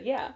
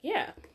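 First: It is said in a flat, somber tone. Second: It is said in a happy, cheerful tone.

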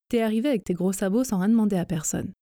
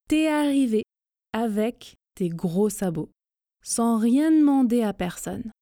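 First: The sentence is spoken at a fast, rushed pace. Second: The sentence is spoken at a slow, careful pace. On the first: "la vitesse express. Vite, donc" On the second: "Je répète lentement, mais en faisant les contractions"

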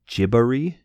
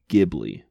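First: It is pronounced the way it is in Japan. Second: It is pronounced the way it is in Italy. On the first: "the way it's pronounced in Japan" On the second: "in Italy, Ghibli is a word and it's pronounced Ghibli"

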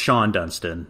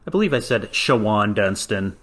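First: The first name is said with one syllable. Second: The first name is said with two syllables. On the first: The speaker calls it right. "It's Sean Dunston" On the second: The speaker calls it wrong. "I believe I said Shawan Dunston"

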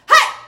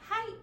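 First: It is shouted loudly and forcefully. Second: It is said weakly and quietly.

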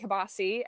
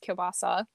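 First: The word has a casual, family-style pronunciation. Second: The word has the standard, careful pronunciation. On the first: This is how the family said it during childhood. The speaker calls it wrong. "We always called it kielbasa as a kid" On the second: This is the accepted way to say it. The speaker calls it right. "but it's kielbasa"

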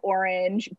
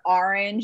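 First: It is said with a neutral accent. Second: It is said with a Boston accent. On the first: "instead of orange" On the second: "or orange instead of orange"

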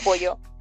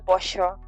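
First: It is said with her usual accent. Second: It is said with an Argentine accent. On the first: This is the speaker's original way of speaking. "en vez de pollo" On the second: The speaker has picked up the local way of speaking. "ya estoy que digo pollo"

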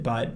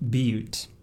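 First: The word sounds like 'butt', with a short vowel. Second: The word sounds like 'beaut', with a long vowel. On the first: The speaker calls it wrong. "we pronounced it butt" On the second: The speaker calls it right. "but it's actually pronounced butte"

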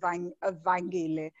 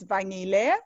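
First: The name is said with a G sound. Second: The name is said with no G sound. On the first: This is how Xhosa speakers usually say the name. "most Xhosa people pronounce it as Vanyile" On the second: This is the intended pronunciation of the name. "It's a silent G though, so it's Vanyile"

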